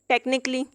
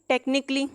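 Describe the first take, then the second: The two takes are said the same way.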